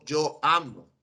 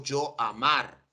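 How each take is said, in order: First: Said in the usual way. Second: "yo amar" said slowly with weight on "amar" to show the mistake; slow, pointed "yo amar"; wrong form slowly. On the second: Shown as a demonstration. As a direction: drag out "yo amar" as the form we don't use. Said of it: "Yo no digo".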